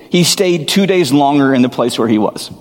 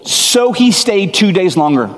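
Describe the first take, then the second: First: Said in the usual way. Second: Pitched up, leaning on each word in disbelief; incredulous stressed retelling. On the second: Shown as a demonstration. Preacher stunned at the verse, incredulous. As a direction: stress how strange the delay is. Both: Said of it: "He loved them, heard he was ill".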